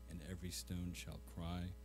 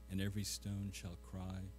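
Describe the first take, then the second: No difference in how they are said.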